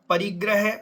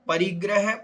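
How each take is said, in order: No difference in how they are said.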